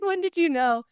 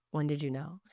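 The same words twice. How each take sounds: First: Nervous. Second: Said in the usual way. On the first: Retold or imitated. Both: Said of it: "'Cause I was so nervous".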